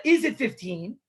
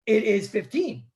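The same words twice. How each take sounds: First: "fifteen" lifted at the end as a question; asking intonation. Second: "it is fifteen" stated as a fact; statement intonation. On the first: Acted. Man asking his fellow if it is fifteen, questioning. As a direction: rise on "fifteen", asking rather than stating. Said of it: "He's asking a question". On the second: Shown as a demonstration. Teacher showing what was never said, "it is fifteen" as a statement. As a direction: close "fifteen" as a statement, not a question. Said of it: "he's not actually saying".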